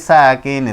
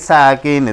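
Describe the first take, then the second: Both takes have the same delivery.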